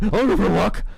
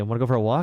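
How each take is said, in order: First: It is said in an excited dog-like voice. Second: It is said in a plain, ordinary voice.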